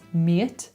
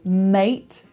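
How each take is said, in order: First: The vowel sounds more like 'ear'. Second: The vowel is a plain 'ay' sound.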